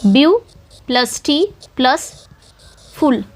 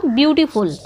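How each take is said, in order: First: "view", "टी", "फुल" as separate slow beats with pauses; split into syllables. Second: Said in the usual way. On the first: Shown as a demonstration. Teacher counting syllables in beautiful, slow separated breakdown. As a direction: isolate view, टी and फुल, pausing between them. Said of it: "ब्यू एक syllable है". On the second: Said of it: "जैसे कि कल मैंने बताया था".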